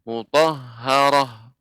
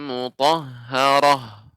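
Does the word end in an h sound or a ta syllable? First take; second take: h sound; h sound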